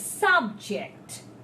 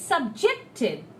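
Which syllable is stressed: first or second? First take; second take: first; second. First: The stress is on the first syllable. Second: The stress is on the second syllable. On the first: It is used as a noun. "So it's a noun" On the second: It is used as a verb. "So his ject is strong, it's a verb"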